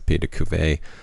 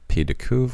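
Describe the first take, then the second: First: The last word ends on an added vowel sound. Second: The last word ends on a consonant sound. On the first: The speaker calls it wrong. "which I pronounce as Pied de Cuvée multiple times" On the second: The speaker calls it right. "my pronunciation of Pied de Cuve"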